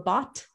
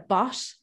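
First: The final t is a crisp full stop. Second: The final t is a soft hissing sound. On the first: "as opposed to a bot" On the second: "In Ireland, we pronounce our T's with more of a, like a bosh"

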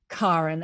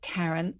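First: The first vowel is a hard 'ah' as in car. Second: The first vowel is not an 'ah' sound. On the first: This is the Scandinavian way to say the name. The speaker calls it right. "people call me Karin" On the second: This is the way others commonly say the name. The speaker calls it wrong. "and not Karin"

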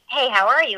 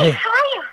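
First: It is said in a plain, relaxed voice. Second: It is said out of breath, panting.

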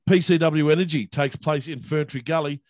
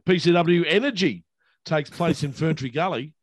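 First: It is said flatly, with little energy. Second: It is said with more energy and emphasis. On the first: "why didn't you give PCW that kind of energy?" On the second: "Did I emphasize the right word?"

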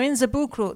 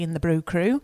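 First: It is said in a put-on foreign accent. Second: It is said in the speaker's natural accent.

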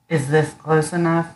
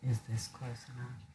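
First: It is spoken louder. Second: It is spoken quietly. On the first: The speaker calls it right. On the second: The speaker calls it wrong.

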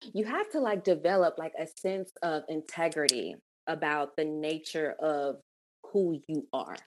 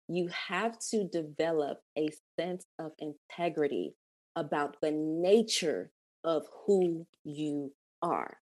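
First: It is said at a normal pace. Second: It is said slowly and deliberately.

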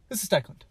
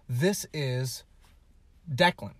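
First: It is said really fast and unclearly. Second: It is said at normal speed, clearly.

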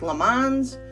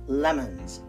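First: The second vowel is a full 'o' sound. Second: The second vowel is a weak schwa sound. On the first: The speaker calls it wrong. "it looks like lemons" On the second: The speaker calls it right. "but we pronounce it lemons"

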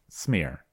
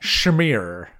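First: The word begins with a plain s sound. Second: The word begins with a strong sh sound. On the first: The speaker calls it right. "I knew it was smear. It's not schmear" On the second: The speaker calls it wrong. "You really have to hit the CH"

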